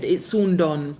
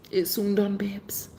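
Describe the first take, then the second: First: Said in the usual way. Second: A teasing secret whisper. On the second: Acted. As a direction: whisper it playfully, barely voiced. Same words repeated in a whisper.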